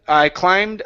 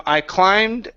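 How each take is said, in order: No difference in how they are said.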